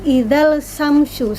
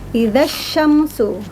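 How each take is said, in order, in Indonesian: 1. Bunyi L dibaca sebelum kata berikutnya. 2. Bunyi L melebur ke bunyi sh yang mengikutinya. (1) "alif lam tidak dibaca, bukan idzal samsu" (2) "Jadi langsung dileburkan saja. Idza syamsu langsung ke huruf shinnya"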